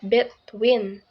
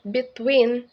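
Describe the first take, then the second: First: The stress is on the first syllable. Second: The stress is on the second syllable. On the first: The speaker calls it wrong. "not between" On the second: The speaker calls it right. "the stress second syllable"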